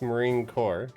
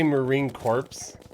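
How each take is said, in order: First: The last word ends without a 'ps' sound. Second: The last word ends with a 'ps' sound. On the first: The speaker calls it right. "It's Marine Corps" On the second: The speaker calls it wrong. "you don't say Marine Corps"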